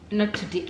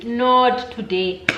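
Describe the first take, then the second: First: Said in the usual way. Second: Long, stressed "Not" in "Not today"; drawn-out, defiant "Not today"; emphatic refusal. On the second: Retold or imitated. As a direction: stretch "Not today" out slowly and firmly.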